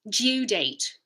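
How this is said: It has a y sound after the d. "British English"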